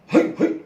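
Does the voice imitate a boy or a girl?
boy. It is said in a boy's tone.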